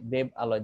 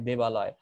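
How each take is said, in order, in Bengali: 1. শব্দ দুটি আলাদাভাবে বলা হয়, স্বরধ্বনিগুলো পৃথক থাকে। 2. শব্দ দুটি মিলে একটি মসৃণ শব্দ হয়ে যায়। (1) "এটা শুনতে কেমন লাগে না?" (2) "তাহলে শুনতে ভাল লাগবে।"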